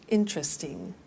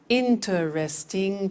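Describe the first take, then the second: First: Interesting said in three syllables, IN-tres-ting; the quick everyday way of saying interesting; relaxed native interesting; natural pronunciation. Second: Interesting said slowly with four syllables, IN-ter-est-ing; slow teacher model of Interesting; careful pronunciation. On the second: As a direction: spell out Interesting slowly and clearly. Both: Shown as a demonstration. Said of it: "Pronunciation, interesting".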